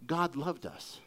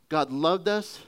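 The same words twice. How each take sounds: First: Soft and low, tender; quiet heartfelt assurance; softer tender repetition. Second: Said in the usual way. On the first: Real, not acted. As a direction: say it gently, letting it land. Repeated tenderly.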